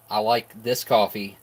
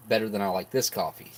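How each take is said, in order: First: "coffee" drawn out as the peak, slowed; stress on coffee. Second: "this" hit hardest, then falling; stress on this. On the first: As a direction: lean on "coffee", say "this" lightly. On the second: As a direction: punch the word "this", let "coffee" drop. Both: Shown as a demonstration.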